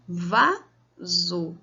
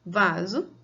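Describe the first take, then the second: First: "Vaso" split in two, a gap after "Va"; "Vaso" broken up, first syllable louder and rising. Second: Said in the usual way. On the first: Shown as a demonstration. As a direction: count out "Vaso" as two separate beats. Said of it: "quando a gente conta essas sílabas". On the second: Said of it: "mesma coisa na questão da palavra vaso".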